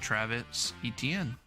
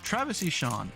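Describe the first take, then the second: First: The surname is said in its common form. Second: The surname is said as two syllables, 'Eshon'.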